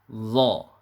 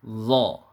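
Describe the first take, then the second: First: The consonant sounds thick and full. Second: The same.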